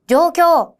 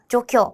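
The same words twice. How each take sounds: First: The long vowels are clearly stretched out. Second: The long vowels are said short and quickly. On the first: The speaker calls it right. "장음에 좀 오버를 해서" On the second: The speaker calls it wrong. "이렇게 대충 외우지 마시고"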